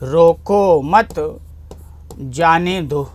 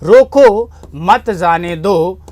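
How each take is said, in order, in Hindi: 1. 'mat' के ठीक बाद विराम है। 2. 'roko' के ठीक बाद विराम है। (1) "उसको रोकना नहीं है जाने देना है" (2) "कामा अल्प विराम लगा दिया"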